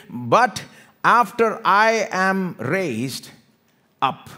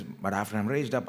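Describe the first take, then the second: First: "But after I am raised up" loud and drawn out; emphatic declaration. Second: Said in the usual way. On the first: Acted. Jesus promising his return, loud slow stress on RAISED. Key verse declaimed, then repeated plainly.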